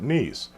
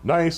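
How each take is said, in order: First: It is said the French way. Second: It is said the English way.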